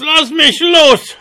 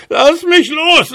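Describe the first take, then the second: First: Very high, slow wailing dwarf plea; slower howling dwarf. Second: Very high wailing dwarf voice; howling dwarf. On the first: Dwarf repeats his plea to the horse, slower howling. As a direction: drag the plea out in a squeal. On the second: Dwarf caught by the beard begs the horse, howling. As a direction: squeal to be let go. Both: A narrator's reading. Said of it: "heulte der Zwerg".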